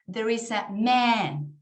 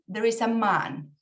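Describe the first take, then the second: First: It is said in an American accent. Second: It is said in a British accent. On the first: "very, very American English" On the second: "in British"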